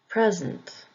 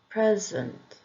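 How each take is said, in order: First: The stress is on the first syllable. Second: The same.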